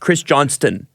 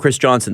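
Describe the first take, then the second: First: The surname is said with a T sound. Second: The surname is said without a T sound. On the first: This matches how the name is spelled. The speaker calls it right. "But it is Chris Johnston" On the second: This is how most people say the name. The speaker calls it wrong. "Everybody calls him Chris Johnson"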